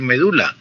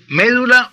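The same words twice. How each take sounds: First: "medula" said me-DU-la, stress on the middle syllable; stress on second syllable. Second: "médula" said MÉ-du-la, stress on the first syllable. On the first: Radio teacher showing the other stress: "medula" as me-DU-la. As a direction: put the weight on DU in "medula". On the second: Radio teacher showing a listener one stress: "médula" as MÉ-du-la. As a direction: land on the opening MÉ of "médula". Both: Shown as a demonstration. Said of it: "Se puede decir médula o se puede decir medula".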